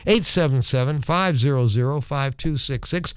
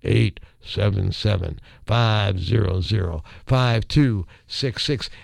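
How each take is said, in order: First: The number is said fast. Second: The number is said slowly.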